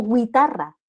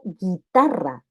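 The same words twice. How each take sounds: First: GUITARRA said as gwi-tarra, with a w glide; U wrongly sounded. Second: GUITARRA said slowly as gi-tarra, hard g and no w; silent U. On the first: Teacher showing what not to say, GUITARRA as gwi-tarra. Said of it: "no digo guitarra". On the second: Teacher showing the correct word, GUITARRA as gi-tarra. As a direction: drop the U in GUITARRA, drawing it out. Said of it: "digo guitarra". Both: Shown as a demonstration.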